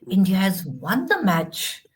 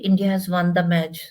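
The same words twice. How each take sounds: First: The voice rises and sounds happy and excited. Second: The voice drops and sounds gloomy and sad. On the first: The speaker is delighted by the news. The speaker calls it right. "My voice should go up" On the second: The speaker seems unhappy about the news. The speaker calls it wrong. "then why you are so sad?"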